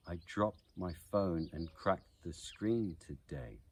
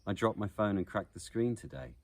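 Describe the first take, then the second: First: Slow, measured beat on DROPPED, PHONE, CRACKED, SCREEN, the DAY of today; iambic beat. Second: Said in the usual way. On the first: Shown as a demonstration. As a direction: scan it slowly, stressing every second syllable: i DROPPED my PHONE and CRACKED the SCREEN toDAY. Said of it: "it is the heartbeat of naturally spoken English". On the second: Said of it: "naturally spoken English".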